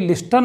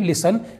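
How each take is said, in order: First: The t sound is pronounced. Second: The t sound is left out. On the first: The speaker calls it wrong. "लिस्टन नहीं पढ़ेंगे" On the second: The speaker calls it right. "हम इसे पढ़ेंगे लिसन"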